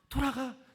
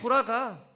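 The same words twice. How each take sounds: First: It is said in a warm, encouraging tone. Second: It is said in a displeased, dismissive tone. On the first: The speaker gladly lets the other person go. "이렇게 긍정적으로 해석을 하는 사람들이 있어요" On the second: The speaker resentfully lets the other person go. "이렇게 부정적으로 해석을 하길 원하세요?"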